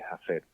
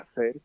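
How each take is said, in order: First: The word begins with an aspirated h sound. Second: The word begins with a silent h. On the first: This is how an Andalusian speaker may say it. "puede decir hacer" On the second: This is the usual form in the rest of Spain. "en vez de hacer"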